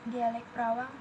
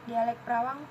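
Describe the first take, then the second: No difference in how they are said.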